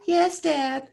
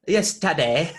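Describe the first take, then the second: First: Very high, squeaky pretend baby. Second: Put-on playful British baby voice; British accent. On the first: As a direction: answer dad as the baby would. Answers dad as the baby. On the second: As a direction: echo it in mock British. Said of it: "she got a more British accent".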